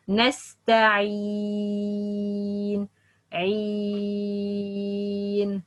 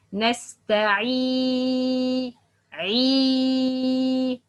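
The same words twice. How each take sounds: First: Slow, even نستعين with a smooth long ee; correct unstressed kasra. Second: Lifted, pushed long ee in عي; wrong over-stressed kasra. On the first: Teacher models the right way, kasra not stressed. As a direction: hold the ee of عين without pushing it. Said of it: "that's wrong. But". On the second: Teacher shows the mistake, over-stressed kasra. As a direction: press hard into عي of نستعي, held long. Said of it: "No, that's wrong". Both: Shown as a demonstration.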